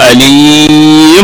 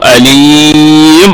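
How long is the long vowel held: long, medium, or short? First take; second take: long; long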